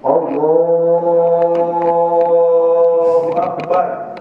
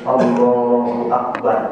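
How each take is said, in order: First: The vowel is drawn out long. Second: The vowel is kept short.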